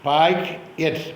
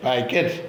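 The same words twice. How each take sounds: First: pack, at as two separate beats with a pause; split into syllables. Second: Said in the usual way. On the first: Shown as a demonstration. Teacher models for listening pupils, pack and at said apart. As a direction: break the word into pack and at. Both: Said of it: "teacher പറയുന്ന ഈ വാക്കുകളൊക്കെ കേൾക്കുക".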